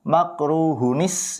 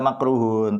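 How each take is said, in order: First: The final nun carries an i linking onward. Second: The word ends cleanly on the nun sound. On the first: The word is joined to the following word. "ketika kita bacanya di wasol ya disambung" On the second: The word is read on its own. "ketika kita baca potong-potong tetap baca makruhun"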